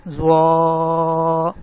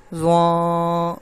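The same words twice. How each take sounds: First: زوا held very long and loud, mouth wide; mouth open, clear. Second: Nasal wrong way. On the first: Teacher showing students the clear open-mouthed زوا. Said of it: "منہ کھولا آواز صاف ہوگی". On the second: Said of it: "ناک سے آواز آ رہی ہے". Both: Shown as a demonstration.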